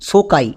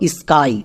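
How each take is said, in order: First: An extra vowel separates the s and k. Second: The s and k are blended together. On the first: The speaker calls it wrong. "সোকাই বলে কোনো ইংরেজি word হয় না, একদমই ভুল উচ্চারণ।" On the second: The speaker calls it right. "নিয়ম অনুযায়ী, যে এস কে consonant blending word"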